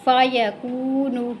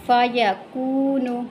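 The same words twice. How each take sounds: The two takes are said the same way.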